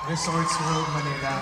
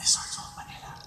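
First: It is said in a normal speaking voice. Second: It is said in a soft whisper.

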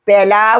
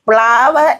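First: A vowel separates the p and l sounds. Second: The p and l sounds form one cluster. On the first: The speaker calls it wrong. "പെലാവ് എന്ന് പറയാൻ ഒക്കുകയില്ലല്ലോ" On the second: The speaker calls it right. "ആ ഉച്ചാരണം പ്ലാവ് എന്നാണ് പറഞ്ഞു കൊടുക്കുന്നത്"

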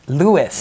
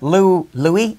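First: The name ends with a clear s sound. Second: The name ends in a vowel, with no s. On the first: The speaker calls it right. "It's Lewis" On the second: The speaker calls it wrong. "Wait a second. Louis?"

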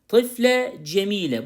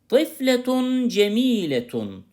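First: Each word stops on -e with a pause. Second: Each word ends with a full -tun ending.

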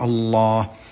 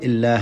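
First: The L is thick and heavy, darkly velarized. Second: The L is thin and light, not velarized. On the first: "إذا سبق بمفتوح أو مضموم تفخم تقول الله" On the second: "كذا تنطقها بالترقيق"

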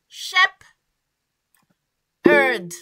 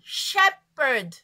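First: The word is split into two separate parts. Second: The word is said as one joined unit. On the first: "Vous le prononcez en deux temps" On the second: "essayez de coller les deux ensemble"

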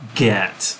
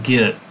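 First: The vowel sounds like the one in 'set'. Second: The vowel sounds like the one in 'bit'. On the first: This is the standard pronunciation. "git is supposed to rhyme with set, bet, met" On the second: This is the speaker's own Texan pronunciation. "I said the English word G-E-T in a non-standard way"

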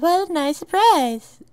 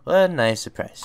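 First: It is said in a put-on preppy girl voice. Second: It is said in the speaker's own voice.

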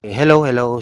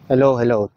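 First: The audio is unprocessed, with wind and breathing. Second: The audio is noise-reduced and from farther away.

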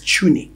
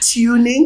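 First: The word begins with a ch sound. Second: The word begins with a plain t sound. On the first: The speaker calls it right. "so they pronounce it with a ch" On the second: The speaker calls it wrong. "It's actually tuning, but it doesn't. That's not how it sounds"

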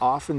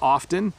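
First: The word is said without a T sound. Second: The word is said with a T sound. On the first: "it often sounds like we're not saying the T, because we're not really. Did you hear that?" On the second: "If I was a correct speaker and I was speaking in front of a group of people, I would try to say often"

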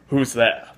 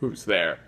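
First: It is said in a plain, ordinary voice. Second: It is said in an imitated character voice. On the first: The speaker calls it wrong. "He didn't say it like that" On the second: The speaker calls it right. "I can't do the voice"

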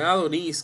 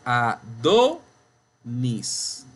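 First: The stress is not on the middle syllable. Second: The stress is on the middle syllable. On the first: The speaker calls it wrong. "no es Adonis que usted dice" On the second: The speaker calls it right. "es Adonis"

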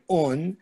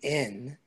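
First: The word is said with an 'u' vowel. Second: The word is said with an 'i' vowel. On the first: This is the standard literary form. "instead of the word un" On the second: This is the Voliner theater dialect form. "we would say in"

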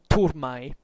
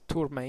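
First: The word uses restored classical Latin pronunciation. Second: The word uses a non-classical Latin pronunciation. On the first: "in pronunciatio restituta" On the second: "otherwise turmae if you prefer"

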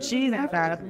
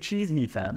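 First: The last word ends with a 'b' sound. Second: The last word ends with an 'm' sound. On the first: The speaker calls it wrong. "He didn't even say it properly" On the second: The speaker calls it right. "That's what you're supposed to say"

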